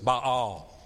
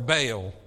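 First: The name is said in a Hebrew-style pronunciation. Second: The name is said in a Southern US pronunciation. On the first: "If you're speaking Hebrew, it is Baal" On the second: "if you're from south of the Mason-Dixon line"

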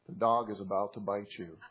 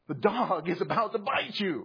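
First: It is said flatly, with no urgency. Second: It is said loudly, with urgent alarm. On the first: The speaker calls it wrong. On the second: The speaker calls it right.

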